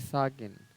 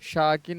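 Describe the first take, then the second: First: The word begins with an 's' sound. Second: The word begins with an 'sh' sound. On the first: The speaker calls it right. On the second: The speaker calls it wrong. "शाकिन नहीं"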